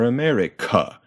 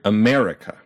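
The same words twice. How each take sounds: First: A syllable other than the second is loudest. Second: The second syllable is the loudest. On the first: The speaker calls it wrong. "very weird if we did that to another syllable" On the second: The speaker calls it right. "we punch that mare"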